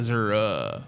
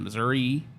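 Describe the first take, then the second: First: The name ends with an "uh" sound. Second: The name ends with an "ee" sound. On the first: "like U H" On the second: "like E"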